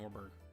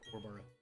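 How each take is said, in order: First: It is said in a Southern US accent. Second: It is said in a Scottish or Irish accent. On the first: "my uh, southern accents" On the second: "he's definitely from somewhere, probably Ireland, uh, Scotland"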